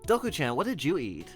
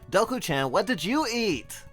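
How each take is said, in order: First: The line is said at a calmer volume. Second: The line is yelled loudly. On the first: The speaker calls it right. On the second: The speaker calls it wrong.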